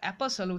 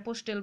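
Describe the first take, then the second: First: The middle t is silent. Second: The middle t is clearly pronounced. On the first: The speaker calls it right. "অ্যাপাসল উচ্চারণ" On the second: The speaker calls it wrong. "অ্যাপোস্টেল বা কিছু এরকম উচ্চারণ নয়"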